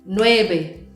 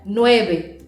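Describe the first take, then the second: No difference in how they are said.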